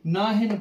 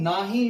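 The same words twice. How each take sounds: First: ਨਾਹਨ ending on a clear n; closing n. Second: ਨਾਹੀ ending in an open ī, no final n; long ī ending. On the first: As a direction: close ਨਾਹਨ with n after a short vowel. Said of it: "ਨਾਹਨ ਪੜ੍ਹਨਾ". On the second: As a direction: finish ਨਾਹੀ on the vowel. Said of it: "ਇਸ ਨੂੰ ਨਾਹੀ ਨਹੀਂ ਪੜ੍ਹਨਾ". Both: Shown as a demonstration.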